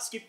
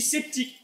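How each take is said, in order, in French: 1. Le mot commence par un son sk. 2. Le mot commence par un son s simple. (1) "pas sceptique" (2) "S-C-E, ça ne fait pas ce ça fait C. On dit sceptique"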